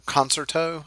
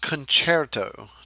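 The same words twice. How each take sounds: First: The word starts like the English 'concert'. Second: The word does not start like 'concert'. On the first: The speaker calls it wrong. "Don't say it" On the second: The speaker calls it right. "it is pronounced concerto"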